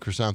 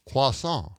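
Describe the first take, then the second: First: Croissant is said with an English pronunciation. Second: Croissant is said with a French pronunciation. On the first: The speaker calls it wrong. "you can't say it the way I'm saying it right now" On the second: The speaker calls it right. "It's got to be croissant"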